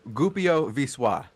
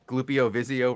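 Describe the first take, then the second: First: The L sounds are silent in the name. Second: The L sounds are pronounced in the name. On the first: The speaker calls it right. "those L's are silent" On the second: The speaker calls it wrong. "we were pronouncing Glupio Vizio wrong"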